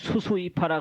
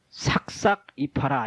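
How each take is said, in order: First: The repeated syllable is pronounced su. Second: The repeated syllable is pronounced sak. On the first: The speaker calls it wrong. "그러면 저 녀석 저 이상한 놈이다" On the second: The speaker calls it right. "이렇게 읽어야 되지"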